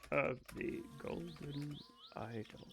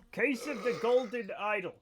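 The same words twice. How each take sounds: First: Case of the Golden Idol fading soft and slow; trailing off. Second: Said in the usual way. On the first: Shown as a demonstration. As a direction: let Case of the Golden Idol die away wistfully. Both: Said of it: "I look like, okay".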